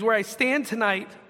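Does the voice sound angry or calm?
calm. It is read in a calm, plain voice.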